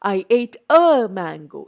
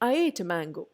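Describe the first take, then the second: First: The word 'a' is said fully and clearly. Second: The word 'a' is barely heard, very weak. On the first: The speaker calls it wrong. "I don't say" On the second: The speaker calls it right. "I എം using എ very weak form of that എ"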